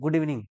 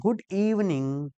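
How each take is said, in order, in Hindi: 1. 'evening' का पहला अक्षर हल्के दबाव से बोला जाता है। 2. 'evening' का पहला अक्षर ज़ोरदार दबाव से बोला जाता है। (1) "जैसे गुड इवनिंग बोल देते हो ना आप लोग" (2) "इवनिंग में ई पर थोड़ा दबाव डाल दिया करो"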